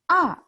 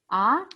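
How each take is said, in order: First: The pitch falls sharply from high to low. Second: The pitch rises from mid to high. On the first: "fourth tone, 四声. That's a angry sound" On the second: "Second tone, 二声, surprise sound or question sound"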